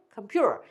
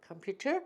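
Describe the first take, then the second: First: 컴퓨터 falling, said "keom-pyu-rer"; flapped t. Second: 컴퓨터 softer and lower, t kept; clear t. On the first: Teacher repeating the drill, flapped t. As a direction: flap the t in 컴퓨터 like r. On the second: Teacher repeating the drill, clear t. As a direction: keep a true t in 컴퓨터. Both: Shown as a demonstration. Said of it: "다시 해보시죠".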